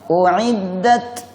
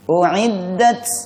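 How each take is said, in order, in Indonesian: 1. T terakhir berakhir dengan hembusan napas. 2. T terakhir berakhir dengan desisan seperti s. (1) "ada hembusan nafas yang keluar ... Yang betul yang kedua" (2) "Ujungnya dibaca seperti bunyi sin. ... Yang pertama tadi"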